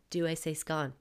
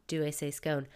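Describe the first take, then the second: First: "scone" said with a short o, rhyming with "gone". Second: "scone" said with a long o, rhyming with "cone". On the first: Listeners asking about their own accent, "scone" rhyming with "gone". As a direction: say "scone" as "skon", short and clipped. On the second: Listeners asking about their own accent, "scone" rhyming with "cone". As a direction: stretch "scone" into "skoan", like an ice cream cone. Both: Retold or imitated.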